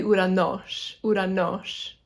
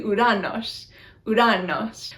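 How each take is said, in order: First: "Uranos" as oo-ra-NOS, tapped r; final-syllable accent. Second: "Uranos" as oo-RA-nos, tapped r; wrong-syllable accent. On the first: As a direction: move the stress to the end of "Uranos". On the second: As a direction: stress the middle of "Uranos". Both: Shown as a demonstration. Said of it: "accent on the wrong syllable".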